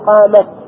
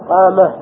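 First: The word ends with a t sound. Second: The word ends with an h sound. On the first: The speaker calls it right. "فهذه عند الوقف التاء لا تتغير، فتقول قامت" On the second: The speaker calls it wrong. "تثبت الياء ساكنة ولا تغيرها، تقول قامه قامه، فنلتبس"

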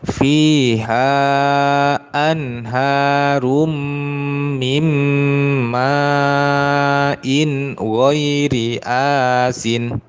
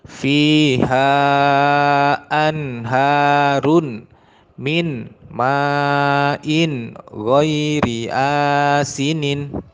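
First: Sounds merge across words and the final ending drops. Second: Each word is said separately with full endings. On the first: "Dan yang kedua menggunakan tajwid" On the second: "Yang pertama dibaca sesuai dengan kaidah nahu dalam arti tidak menggunakan tajwid"

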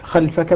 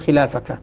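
First: The first vowel is followed directly by 'l', no long a. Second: A long 'a' sound comes between 'l' and 'f'.

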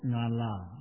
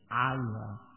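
First: The word begins with a nasal ng sound. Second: The word begins with a sound from the throat. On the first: The speaker calls it wrong. "jangan dibaca nga, ... ini kurang tepat" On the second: The speaker calls it right. "keluar dari tengah tenggorokan"

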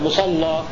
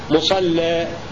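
First: The L is heavy and the final vowel open. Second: The L is light and the final vowel raised. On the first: "فإذا غلظنا نفتح الألف" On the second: "وإذا رققنا اللام نقلل الألف"

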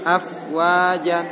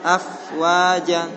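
Both takes have the same delivery.

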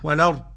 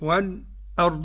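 First: The glottal stop is dropped and its vowel moves back. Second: A brief light pause comes before the glottal stop. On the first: "والنقل طبعا ورش واضح" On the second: "سكتة لطيفة خفيفة كده"

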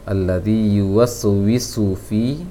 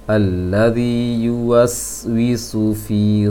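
First: The silent s sound bounces with an added echo. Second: The silent s sound is held steady without bouncing. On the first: The speaker calls it wrong. "ada yang terpantulkan pengucapan sin sukun" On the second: The speaker calls it right.

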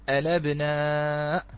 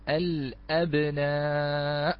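First: The glottal stop is dropped; l takes its vowel. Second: A glottal stop is heard after the article al. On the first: "ورش سوف يقول الأبناء، نعم فنقل حركة الهمزة" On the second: "سوف نقول الأبناء"

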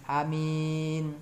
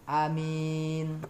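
Both takes have the same delivery.

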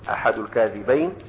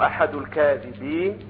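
First: The last word ends with an 'ayn' sound. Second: The last word ends with an 'een' sound. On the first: The one who invents it and the one who passes it on are the two liars. "يقصد به ماذا؟ الواضح والراوي" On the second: The narrator is one among many liars. "هكذا يكون جمعا"

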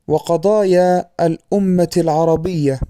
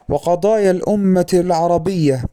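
First: The linking hamza is pronounced as a glottal stop. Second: The linking hamza is dropped in connected speech. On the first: The speaker calls it wrong. "نطق همزة الوصل في أثناء الكلام بمعنى تحويلها إلى همزة قطع" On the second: The speaker calls it right. "وكان الصواب أن يقال"

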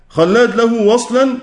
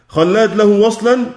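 The two takes are said the same way.

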